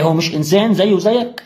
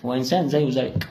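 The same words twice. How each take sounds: First: Rising challenge on زيك, pushing the listener; rhetorical question. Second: Softer falling statement, انسان settled low; quiet answer. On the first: To the smoker, challenging question rising on زيك. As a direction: ask it as a pointed rising question ending up on زيك. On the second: To the smoker, quiet falling answer on انسان. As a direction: answer your own question, quietly and firmly. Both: Shown as a demonstration.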